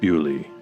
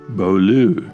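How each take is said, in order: First: The name is said in a softened Scots form. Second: The name is said with French pronunciation. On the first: The name as it later developed in Scots. "the word softened into Scots and became" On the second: The valley's original name from the French-speaking monks. "which in French means the beautiful place"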